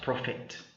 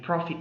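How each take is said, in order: First: Its second vowel differs from the one in 'profit'. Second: It sounds exactly like the word 'profit'. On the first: The speaker calls it wrong. "not prophet" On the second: The speaker calls it right. "pronounced exactly as P R O F I T"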